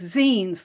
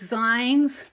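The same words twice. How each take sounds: First: The word rhymes with 'magazine'. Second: The word rhymes with 'lines'. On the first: "like a magazine" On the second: "I pronounced it like I saw it"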